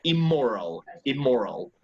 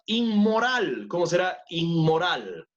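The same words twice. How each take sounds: First: Immoral with just an M, no N; M-only pronunciation. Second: Inmoral with an N sound before the M; Spanish N-M pronunciation. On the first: Teacher correcting students, immoral pronounced only with the M. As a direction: say immoral as "im-moral", falling at the end. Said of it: "Pronunciémosle solo con la M". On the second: Teacher asking for the English word, inmoral in Spanish pronunciation. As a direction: say inmoral the Spanish way, stressed on the last syllable. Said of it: "let's pronounce it only with the M". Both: Shown as a demonstration.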